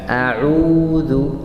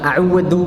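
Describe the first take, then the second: First: The u vowel is held long. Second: The u vowel is cut short. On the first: The speaker calls it right. "karena sukun panjang ya, dua harakat" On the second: The speaker calls it wrong. "Jangan a'udzu"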